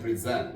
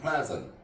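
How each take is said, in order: First: The stress is on the second syllable. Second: The stress is on the first syllable. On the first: It is used as a verb. "동사 때는 present" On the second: It is used as a noun or adjective. "형용사나 명사 때는 present"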